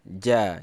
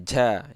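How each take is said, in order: No difference in how they are said.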